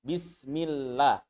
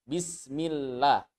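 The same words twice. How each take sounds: First: The l sound is light and thin. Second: The same.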